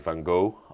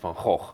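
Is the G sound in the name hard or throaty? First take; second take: hard; throaty. First: The name has a hard English G sound. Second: The name has a throaty sound made far back. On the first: This is how English speakers say it. The speaker calls it wrong. "I heard a lot of American people or English people say Van Gogh" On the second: This is the original pronunciation of the name. The speaker calls it right. "it's actually Van Gogh. You need that pronunciation in the back of your tongue"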